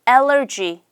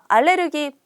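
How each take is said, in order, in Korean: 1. 영어식으로 발음하면 세 음절이에요. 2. 한국식으로 발음하면 네 음절이에요. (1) "알레르기 말고 allergy" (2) "알레르기 말고"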